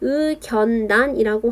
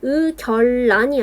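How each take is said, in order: First: The consonants are pronounced as a double N sound. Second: The consonants are pronounced as a double L sound. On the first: The speaker calls it right. "리을의 비음화가 더 우세하다" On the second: The speaker calls it wrong. "의결란이 아니라"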